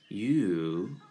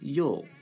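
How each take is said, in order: First: The vowel is long with lips well rounded. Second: The vowel is short with lips barely rounded. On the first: The speaker calls it right. "要撅嘴把这个嘴巴撅圆一些声音拉长一点" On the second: The speaker calls it wrong. "很多同学会读成you"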